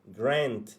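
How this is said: The vowel is a front 'eh'-like sound. "style U- US dia bunyi eh"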